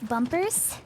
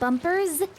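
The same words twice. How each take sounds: First: The word ends with a hissing S sound. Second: The word ends with a buzzing Z sound. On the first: The speaker calls it wrong. "the S sound can get a little bit obnoxious sometimes" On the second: The speaker calls it right. "I wrote a Z as well"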